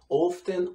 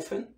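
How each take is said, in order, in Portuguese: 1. O T é claramente pronunciado. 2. O T fica mudo. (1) "muitas pessoas falam o T" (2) "muitas pessoas não falam"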